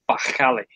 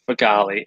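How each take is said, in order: First: The name is said in an Arabic way. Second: The name is said in an English way. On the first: This is how it is meant to be said. The speaker calls it right. "it's Fakhali. So you're supposed to say it" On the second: This is how the family says it. The speaker calls it wrong. "we pronounce it wrong"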